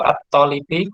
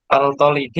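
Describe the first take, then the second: First: The article's l blends into the following t. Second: The article keeps its l sound before the t. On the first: The speaker calls it right. "Al-tolibi atau at-tolibi?" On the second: The speaker calls it wrong. "Al-tolibi atau at-tolibi?"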